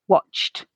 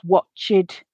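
First: The word has one syllable, ending in a t sound. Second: The word has two syllables, with an added ed syllable. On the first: The speaker calls it right. "the base form has the same number of syllables as the past tense ed form" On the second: The speaker calls it wrong. "pronounce that letter E and create an additional syllable"

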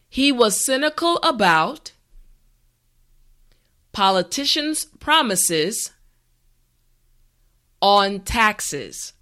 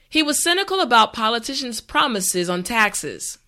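First: The sentence is said slowly and carefully. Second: The sentence is said at a natural speed. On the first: "this time repeat after me" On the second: "this time we will go at a more natural pace"

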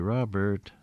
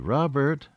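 First: The name is called in a plain, calm voice. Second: The name is called in a louder, sharper voice.

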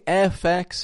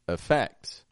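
First: The first vowel is a full, clear vowel. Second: The first vowel is a reduced schwa. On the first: The speaker calls it wrong. "I'm not saying effects" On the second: The speaker calls it right. "but effects"

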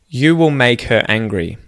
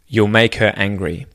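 First: 'Will' is said in full as its own word. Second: 'Will' is contracted onto the word before it. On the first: "the first sentence" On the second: "say the contracted form"

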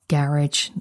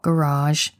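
First: It is said in a British pronunciation. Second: It is said in an American pronunciation. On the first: "I'm a Brit, I say garage" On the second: "more inclined to say GarageBand"

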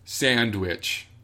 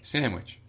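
First: The d sound is hard and clearly heard. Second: The d sound is soft and barely heard. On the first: "I'll make it a hard D" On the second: "It's just a softer D"

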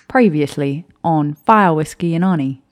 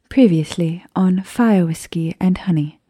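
First: It is said in a put-on Australian accent. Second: It is said in a put-on British accent. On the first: "I can't do an Australian accent. I was gonna try" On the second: "And you just offended all of our British listeners"

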